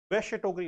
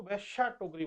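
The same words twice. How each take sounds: First: वैश्य said short, no long aa at the end; correct pronunciation. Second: वैश्या with a long final aa, the common mistake; wrong pronunciation. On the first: (सही उच्चारण: वैश्य टोकरी, छोटा अंत) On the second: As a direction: say वैश्या टोकरी the wrong way, ending in aa. (गलत उच्चारण: वैश्या टोकरी) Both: Shown as a demonstration. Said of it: "गलत है".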